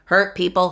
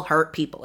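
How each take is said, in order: First: Hurt punched louder, first word leaned on; stress on hurt. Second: Said in the usual way. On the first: Shown as a demonstration. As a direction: hit Hurt hard, then let people fall.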